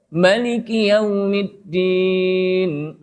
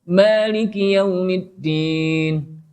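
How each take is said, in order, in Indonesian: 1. Vokal pertama pada maliki dibaca pendek. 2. Vokal pertama pada maliki dibaca panjang. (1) "pendek bacanya" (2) "panjang namanya"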